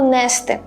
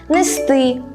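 First: The stress is on the first syllable. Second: The stress is on the second syllable. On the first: The speaker calls it wrong. "Це неправильна форма, яка утворилася через вплив діалектизмів" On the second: The speaker calls it right. "наголос буде падати зазвичай на останній, тобто другий склад"

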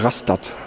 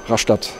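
First: It is said the way northern Germans say it. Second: It is said the local southwestern way.

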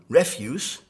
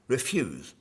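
First: It is pronounced as the noun form. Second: It is pronounced as the verb form. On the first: It means trash or garbage. "either a noun, refuse, which is trash or garbage" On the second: It is a command to decline. "or it can be a verb, in which case it would be an imperative"

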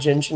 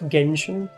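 First: The word begins with a soft J sound. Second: The word begins with a hard G sound. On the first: "I choose to call it Genshin" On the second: "instead of Genshin"

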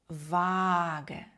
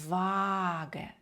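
No difference in how they are said.

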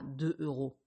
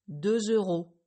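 First: No linking sound joins the two words. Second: A linking Z sound joins the two words. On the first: The speaker calls it wrong. "et pas" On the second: The speaker calls it right. "vous entendrez le son Z"

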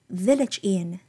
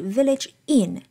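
First: The word village carries the strong stress. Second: The word inn carries the strong stress. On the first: The speaker calls it right. "但是呢应该念成village inn" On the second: The speaker calls it wrong. "他念的是village inn，这个地方inn 它是非常重读的"

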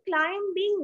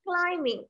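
First: The b sound is pronounced in the word. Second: The b sound is silent in the word. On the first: The speaker calls it wrong. "climbing නෙමෙයි" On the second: The speaker calls it right. "B ශබ්ද නැහැ"

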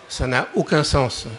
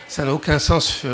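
Both takes have the same delivery.

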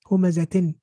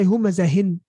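First: A t sound comes before the ending. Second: An h sound comes before the ending. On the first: The speaker calls it right. "We're pronouncing the ta. We're saying humazatin" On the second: The speaker calls it wrong. "we didn't say humazahin"

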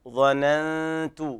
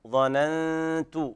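Both takes have the same delivery.

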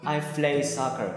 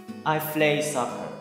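No difference in how they are said.

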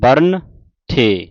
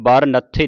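First: The n sound ends the first word. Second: The n sound starts the second word. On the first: The speaker calls it right. "ਇਸ ਦਾ ਉਚਾਰਨ ਹੈ ਬਰਨ ਥੇ" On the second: The speaker calls it wrong. "ਇਹਨੂੰ ਬਰ ਨੱਥੇ ਨਹੀਂ ਪੜਨਾ"

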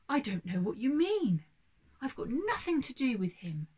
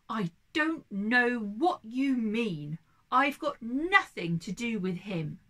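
First: It is said at a quieter volume. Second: It is said at a louder volume.

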